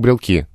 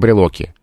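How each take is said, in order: First: No vowel is heard between L and K. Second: A vowel is heard between L and K. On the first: This is the everyday spoken form. "Совершенно нормально" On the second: This is the strict standard form. "что там не должно быть вроде бы беглого гласного"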